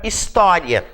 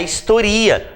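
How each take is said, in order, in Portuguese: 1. A tônica cai na segunda sílaba. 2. A tônica cai na terceira sílaba. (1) "E a palavra história" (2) "se eu tiro o acento"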